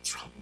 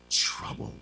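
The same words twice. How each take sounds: First: Said in the usual way. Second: Whispered. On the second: Acted. Word dropped to a whisper.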